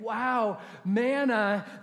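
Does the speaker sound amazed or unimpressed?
amazed. The voice sounds amazed and delighted. The gift feels like a wonderful surprise. The speaker calls it right. "instead of waking up and saying"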